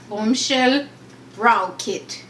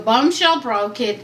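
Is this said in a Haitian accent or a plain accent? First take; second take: Haitian; plain. First: It is said in a Haitian accent. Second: It is said in the speaker's usual accent. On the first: "I'm gonna let the Haitian accent come through" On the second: "I'm gonna read it normally"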